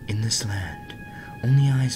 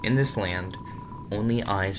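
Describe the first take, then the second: First: It is read in an ethereal put-on voice. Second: It is read in a plain normal voice.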